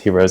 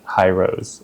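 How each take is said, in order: First: The name does not sound like 'high rose'. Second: The name sounds like the words 'high rose'. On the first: The speaker calls it right. "I didn't know it's pronounced, pr- pronounced Hirose" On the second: The speaker calls it wrong. "I thought it was like High Rose"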